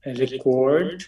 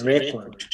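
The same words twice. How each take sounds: First: record with the stress on the first syllable, RE-kord; noun stress on first syllable. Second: record with the stress on the second syllable, re-KORD; verb stress on second syllable. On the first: Teacher contrasting noun and verb, stressing record up front. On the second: Teacher contrasting noun and verb, stressing record at the end. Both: Shown as a demonstration. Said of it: "versus record".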